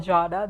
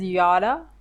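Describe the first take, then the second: First: The name begins with a J sound. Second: The name begins with a Y sound. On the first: "the way I just pronounced" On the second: "if you pronounce the pronounce her name as Yara because it starts with a J"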